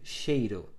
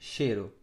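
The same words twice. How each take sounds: First: The first syllable has the diphthong ei. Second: The first syllable has a plain e vowel. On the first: "quando você tem uma sílaba que tem um ditongo" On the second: "Muitas pessoas falam"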